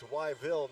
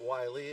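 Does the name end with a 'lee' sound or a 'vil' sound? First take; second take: vil; lee. First: The name ends with a 'vil' sound. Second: The name ends with a 'lee' sound. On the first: The speaker calls it right. "it's Wyville" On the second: The speaker calls it wrong. "not Wiley"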